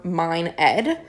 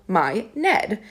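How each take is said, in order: First: MINE ED, with the N closing "mine"; N ending first word. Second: MY NED, split before the N; N moved onto name. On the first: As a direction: keep the N on "mine", then start "Ed" on its vowel. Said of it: "if you say that over and over". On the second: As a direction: open "my", then begin "Ned" clearly on N. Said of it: "start to instead hear it as". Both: Shown as a demonstration.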